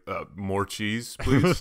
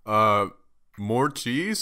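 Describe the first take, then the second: First: Slow, timid ask for more; polite request. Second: Disbelieving ask with a rise; incredulous. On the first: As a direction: ask sweetly, holding back a laugh. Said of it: "I almost laughed". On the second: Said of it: "I had the face". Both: Retold or imitated.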